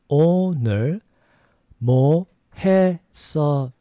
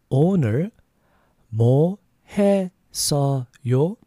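Both takes have the same delivery.

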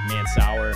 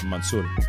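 First: The name is said with Anglicized American sounds. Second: The name is said with Lebanese Arabic sounds. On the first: Outsiders say it this way. "My high school teachers and all that were always like" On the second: This is how the family's community says it. "the ethnic pronunciation of it is like"

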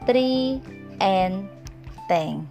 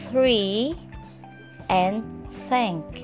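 First: The words begin with a hard t sound. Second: The words begin with a soft th sound. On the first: The speaker calls it wrong. "My student pronounce them" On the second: The speaker calls it right. "Another tricky consonant sound is TH"

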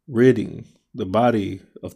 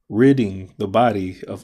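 First: The phrase is spoken at a slow pace. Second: The phrase is spoken at a fast pace. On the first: "Let me slow it down" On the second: "And I said it fast"

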